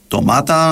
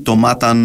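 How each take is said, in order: First: The final n is weak or barely heard. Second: The final n is fully and clearly pronounced. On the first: The speaker calls it right. "εν το αρθρώνουμε φουλ" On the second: The speaker calls it wrong. "όχι"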